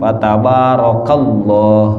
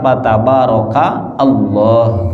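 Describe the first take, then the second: First: The final syllable runs straight into Allah. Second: The two words are split with a break. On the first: "gabung dengan lafaz Allah, jadi masuk" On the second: "Kalau dipenggalkan"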